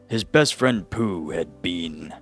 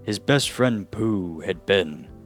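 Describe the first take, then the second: First: It is read in a British accent. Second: It is read in an American accent.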